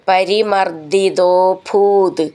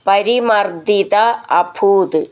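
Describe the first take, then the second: First: The two words merge into one word. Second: The two words are said separately.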